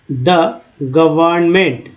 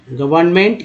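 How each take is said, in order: First: "government" broken into gə-vərn-ment, slowly; slow syllable-by-syllable. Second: Said in the usual way. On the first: Shown as a demonstration. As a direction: sound out "government" part by part. ("Government" को धीरे, तोड़कर पढ़ें) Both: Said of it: "इसको धीरे धीरे पढ़ते हैं".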